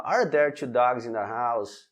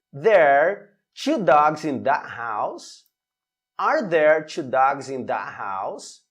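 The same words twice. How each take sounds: First: "Are there two dogs in the house?" said flat and falling, no question rise. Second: "in that house?" with a rising question tune; question intonation. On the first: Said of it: "sem que tenha essa entonação de pergunta". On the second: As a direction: lift the pitch at the end of "two dogs in that house?". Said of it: "muito importante também a entonação". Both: Shown as a demonstration.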